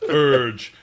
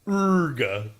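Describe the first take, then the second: First: It is said as the plain English word. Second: It is said with a German ending vowel. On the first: The speaker calls it wrong. "the silly Americans, pronounce it as urge" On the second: The speaker calls it right. "those of us in the know ... we know"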